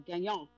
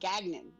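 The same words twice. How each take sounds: First: The name is said with a French accent. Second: The name is said with a local English accent. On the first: The name is given a classy French flair. "I wanted to say, you know, Gagnon" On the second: The name is said the way locals say it. "no, my name's Gagnon"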